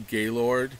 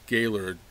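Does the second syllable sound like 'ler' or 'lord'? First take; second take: lord; ler. First: The second syllable is said as 'lord'. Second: The second syllable is said as 'ler'. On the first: The speaker is from out of state or downstate. The speaker calls it wrong. "looks like the word Gaylord, G A Y L O R D" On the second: The speaker is a local. The speaker calls it right. "but we pronounce it Gaylord, E R, er"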